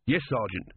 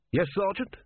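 First: Falling, usual-pitched "Yes, Sergeant"; submissive reply. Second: High, rising answer on "Yes, Sergeant"; questioning reply. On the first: Corporal gives in. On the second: Corporal answers challenge, questioning. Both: Acted.

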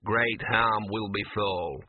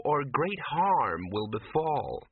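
First: Slow gruff dog mutter, echoing her words; a small dog repeating a grim warning, muttering. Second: Slow, sweet, dreamy foreboding; lightly voiced entranced woman, sugary warning; sweetly. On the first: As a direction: grumble it back under the breath. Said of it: "muttered Gaspode". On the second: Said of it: "she said sweetly". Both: A narrator's reading.

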